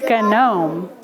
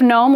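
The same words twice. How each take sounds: First: The word begins with a G before the N. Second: The word begins with a plain N sound. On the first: An older way of saying it. "we used to say gnome" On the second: The present-day way of saying it. "Instead of gnome"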